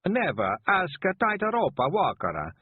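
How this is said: It is said in a put-on foreign accent.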